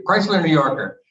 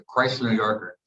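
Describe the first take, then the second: First: Higher, louder burst on the car's name; retold eager exclamation. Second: Said in the usual way. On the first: Teenage player announces his car choice to the team, eager exclamation. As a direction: blurt it out like a kid picking a prize.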